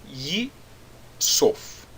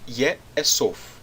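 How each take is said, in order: First: The first syllable has an 'i' vowel. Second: The first syllable has an 'e' vowel. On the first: This is the regular form without the guttural rule. The speaker calls it wrong. "Normalmente nós teríamos Yik... nesse caso seria Yi-Sof" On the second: This is the actual form after the guttural rule. The speaker calls it right. "o Hirek se torna em um Segol. Por isso que nós temos Ye Esof"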